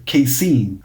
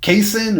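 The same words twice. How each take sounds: First: "casein" as kay-SEEN; "casein" ending like "seen"; second pronunciation option. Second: "casein" as KAY-sin; "casein" ending like "sin"; first pronunciation option. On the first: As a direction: say "casein" with a long ee at the end. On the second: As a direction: say "casein" with a short i at the end. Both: Shown as a demonstration. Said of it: "know how to pronounce it properly".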